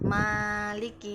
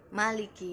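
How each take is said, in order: First: The first vowel of Maliki is held long. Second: The first vowel of Maliki is kept short. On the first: "kata Maliki itu dibaca panjang" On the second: "sepakat dibaca pendek"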